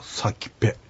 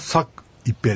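First: The two parts merge into one word, sakipe. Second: The two parts are said separately, sak plus ipe. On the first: "くっついて発音されるとサキペというふうに発音される" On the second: "サクっていうのは夏ですね、イペっていうのは食事をするという意味です"

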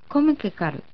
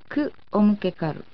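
First: Ku and o merge into one syllable, ko. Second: Ku and omukekaru are said as separate parts. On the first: The speaker calls it right. "短く詰まった形になります" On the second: The speaker calls it wrong. "とすればよいはずですが、そうはなりません"

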